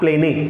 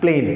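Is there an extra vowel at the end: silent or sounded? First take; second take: sounded; silent. First: The word ends with an extra vowel sound. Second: The word ends with no extra vowel. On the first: The speaker calls it wrong. "Not प्लेने" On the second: The speaker calls it right. "This is प्लेन"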